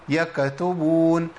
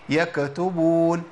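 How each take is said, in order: No difference in how they are said.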